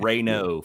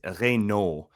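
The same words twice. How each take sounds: First: The name is said with American pronunciation. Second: The name is said with French pronunciation. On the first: "for for all y'all out here in America" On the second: "but it's Reynaud"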